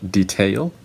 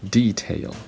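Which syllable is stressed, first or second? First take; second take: second; first. First: The stress is on the second syllable. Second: The stress is on the first syllable. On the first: This is the American pronunciation. "the second syllable is stressed, the first one is unstressed" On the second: This is the British pronunciation. "the first uh, syllable is stressed, second one is unstressed"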